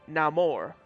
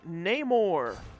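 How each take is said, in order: First: The name is pronounced the Spanish way. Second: The name is pronounced the usual English way. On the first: "the Spanish Namor" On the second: "how I've always been pronouncing it"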